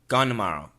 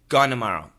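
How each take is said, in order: First: The N of gone replaces the T sound. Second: The same.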